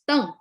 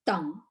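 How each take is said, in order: First: It is said with the Mandarin fourth tone. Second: It is said with the Cantonese second tone. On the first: "So his name in Mandarin, the surname is pronounced as Deng" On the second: "So in Cantonese, uh, Deng is like a second tone, like Deng"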